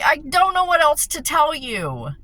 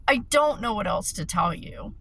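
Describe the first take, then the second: First: Exasperated, raised. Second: Said in the usual way. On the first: Retold or imitated. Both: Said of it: "I'm like".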